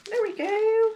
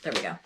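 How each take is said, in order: First: Very high, louder singsong; high singsong triumph. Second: Said in the usual way. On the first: Real, not acted. Putting the piece back on there, high singsong triumph. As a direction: pipe it up high, drawing it out. Fixing the bag, repeated playfully.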